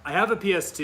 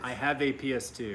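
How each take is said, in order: First: It is said very loudly, almost yelling. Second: It is said at a normal, quieter volume. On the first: The speaker calls it wrong. "You're still yelling" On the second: The speaker calls it right. "There you go"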